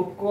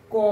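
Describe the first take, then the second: First: ক said as "কঅ", vowel kept; full ক with অ. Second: ক cut off fast with no vowel; quick হসন্ত ক. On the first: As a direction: let the অ after ক sound. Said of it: "যখন উচ্চারণ করবো ক". (ক অ-সহ পূর্ণ উচ্চারণ) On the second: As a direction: clip ক short, bare consonant. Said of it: "তাড়াতাড়ি, খুব তাড়াতাড়ি ক". (ক খুব দ্রুত, হসন্ত দিয়ে) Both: Shown as a demonstration.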